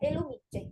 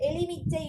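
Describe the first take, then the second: First: The second syllable is pronounced 'lu'. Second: The second syllable is pronounced 'li'. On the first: This is the standard form. The speaker calls it right. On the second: This is the colloquial spoken form. The speaker calls it wrong.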